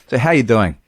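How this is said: It is said as a quick, offhand greeting. It is only a passing greeting.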